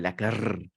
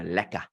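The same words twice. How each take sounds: First: The final r sound is clearly pronounced. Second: The final r sound is dropped. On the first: This is how Afrikaans speakers say it. "unless you're Afrikaans and you go lekker" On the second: This is how English South Africans say it. "we don't go the r... we just go lekker"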